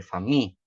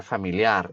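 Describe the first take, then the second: First: "fami" as fa-MI, cut after the stressed syllable. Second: "familiar" as fa-mi-li-AR, weight on the ending; stress on last syllable. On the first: Teacher correcting to English stress, fami accented on MI. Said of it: "O acento está aí". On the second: Teacher showing what English is not, familiar stressed at the end. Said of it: "não é familiar". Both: Shown as a demonstration.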